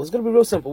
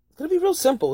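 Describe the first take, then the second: First: Said in the usual way. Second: High excited. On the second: Real, not acted. Repeated phrase, higher.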